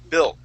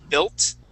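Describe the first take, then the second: First: The final T is swallowed, not released. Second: The final T is clearly released. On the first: The speaker calls it right. "when we say the word, we say built" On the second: The speaker calls it wrong. "We wouldn't say built, okay, unless we really want to enunciate it"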